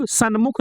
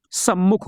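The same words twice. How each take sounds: First: सन्मुख said with a clear n before m, san-mukh; wrong form sanmukh. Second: सम्मुख said with a doubled held m, sam-mukh; correct form sammukh. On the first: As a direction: say सन्मुख as the wrong spelling with n then m. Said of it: "सन्मुख नहीं होता है". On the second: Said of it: "सम्मुख होता है". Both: Shown as a demonstration.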